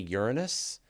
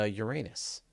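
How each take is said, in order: First: The word is said in an ironic way. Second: The word is said in a filthy way. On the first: "if I'm trying to say it ironically" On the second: "if I'm trying to trying to say it filthily"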